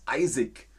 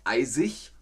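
First: The ending is said the Bavarian dialect way. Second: The ending is said the standard German way. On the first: The speaker calls it wrong. "sondern in Bayern ist es eisig" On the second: The speaker calls it right. "dann ist es nicht eisig"

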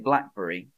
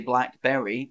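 First: The 'berry' part is shortened and run together. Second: The 'berry' part is said fully and clearly. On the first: The speaker calls it right. "I say blackberry" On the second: The speaker calls it wrong. "I don't say blackberry"

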